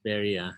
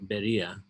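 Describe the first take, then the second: First: The name begins with a B sound. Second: The same.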